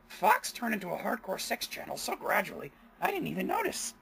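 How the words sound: It is said in a strained, put-on character voice. "I'll do it that one time"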